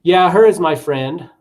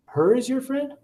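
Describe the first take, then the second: First: Said in the usual way. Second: "Her is your friend?" in a much higher, rising, puzzled tone; "Her" repeated high and questioning so the student hears the mistake; confused repetition. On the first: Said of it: "For example". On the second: Shown as a demonstration. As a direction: echo the error back sounding confused, pitch climbing. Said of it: "changing the intonation in their voice".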